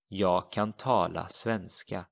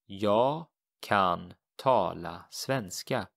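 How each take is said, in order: First: Said in the usual way. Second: Jag kan tala svenska, slow and deliberate; teacher modelling Swedish slowly; slow model sentence. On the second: Shown as a demonstration. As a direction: spell out each word slowly for the learner. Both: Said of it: "So how would you say this?".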